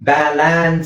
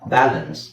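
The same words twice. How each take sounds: First: The second syllable is stressed with a full vowel. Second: Only the first syllable is stressed; second is weak. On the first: The speaker calls it wrong. "Balance ಅಂತ ಆಗಲ್ಲ" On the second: The speaker calls it right. "ನಾನು ಬಿ ನ ಮಾತ್ರ ಒತ್ತಾ ಇದ್ದೀನಿ, ಎಲ್ ನ ಒತ್ತಾ ಇಲ್ಲ"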